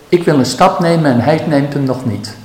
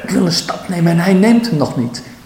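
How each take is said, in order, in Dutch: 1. Het wordt gewoon gezegd, zonder oordeel. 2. Het wordt gezegd met hoorbare weerstand en frustratie. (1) "Als je het zo laat, dat is ook kaal. Er zit nog geen waardeoordeel" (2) "In de manier waarop je het zegt, zie je, daar zit de weerstand in"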